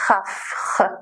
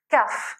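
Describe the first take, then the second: First: It begins with a rough hissing throat sound. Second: It begins with a sharp burst, a stop sound. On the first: The letter is in the middle of a word or ends a syllable. "une sonorité qui n'existe pas en français" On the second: The letter is at the start of a word or syllable. "elle se prononce de façon éclatante"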